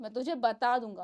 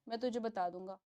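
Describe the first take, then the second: First: It is said angrily, with strong expression. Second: It is said in a flat, normal tone.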